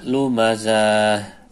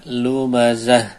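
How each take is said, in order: First: The vowel before the final h is drawn out long. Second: The vowel before the final h is kept short. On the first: The speaker calls it wrong. "dipas-paskan akhirnya keliru" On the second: The speaker calls it right. "Harusnya dibaca pendek"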